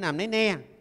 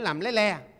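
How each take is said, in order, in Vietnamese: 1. Các từ này bắt đầu bằng âm N. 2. Các từ này bắt đầu bằng âm L. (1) "nó có nhiều khi chế N, chế L mình phát âm nó cũng không được" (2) "Cái bằng L nó phát âm được"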